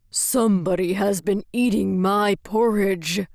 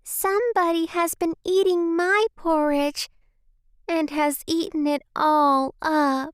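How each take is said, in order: First: Gruff, growly Father Bear; big growly voice. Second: Put-on high-pitched squeaky baby bear; small squeaky baby voice. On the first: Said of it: "said in his great, big, growly voice". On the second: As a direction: squeak it out like a tiny bear cub. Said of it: "said in his small, squeaky baby voice". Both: A narrator's reading.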